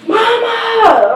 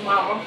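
First: Calling out. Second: Low, soft call of her name; quiet call. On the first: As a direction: call her name up the stairs. Son calls mom from downstairs. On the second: Son softly calling mom from the basement, a low quiet call. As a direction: call softly, not sure she hears. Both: Retold or imitated.

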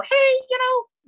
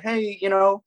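First: Put-on very high, drawn-out squeaky teen "hey"; mock your younger self, pitched way up; pubescent teen voice. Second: Said in the usual way. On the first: Teen self greeting a stranger at first locals, squeaky pubescent voice. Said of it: "for me, barely hitting puberty". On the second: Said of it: "probably sounded something more like that".

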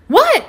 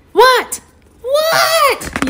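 First: High-pitched kitten what; curious little kitty, pitched high; eager question. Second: Very high, squealed demand to know; squeaky storybook yell; kitten yell. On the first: Acted. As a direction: ask in a quick high squeak. Eager kitty asks unicorn. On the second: A narrator's reading. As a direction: shriek it impatiently, higher the second time. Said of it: "yells Kitty".

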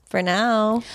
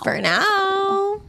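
First: Said in the usual way. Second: High sing-song. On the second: Shown as a demonstration.

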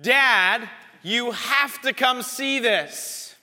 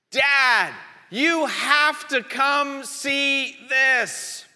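First: Put-on a boy shouting from the back deck for his dad to come look; son calling out. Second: Put-on insistent kid, slowing right down; the son calls again from the deck, slower and more insistent; calling out again. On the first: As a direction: kid yelling for dad from the deck. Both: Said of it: "he yelled out and he said".

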